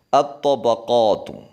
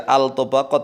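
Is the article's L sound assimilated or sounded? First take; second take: assimilated; sounded. First: The L merges into a doubled next consonant. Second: The L is clearly sounded before the consonant. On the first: The speaker calls it right. "langsung masuk ta ditasydid" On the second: The speaker calls it wrong. "Jangan dibaca al-tabaqat"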